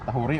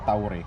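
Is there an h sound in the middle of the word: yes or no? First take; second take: yes; no. First: The word has an h sound in the middle. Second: The word has no h sound in the middle. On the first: "Parang saktong pag-pronounce tahuri o tauri?" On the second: "Ta parang tauri"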